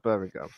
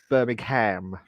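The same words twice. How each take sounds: First: It is said in a plain British accent. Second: It is said in an American accent.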